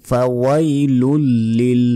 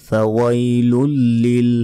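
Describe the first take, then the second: No difference in how they are said.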